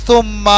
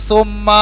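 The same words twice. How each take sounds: The two takes are said the same way.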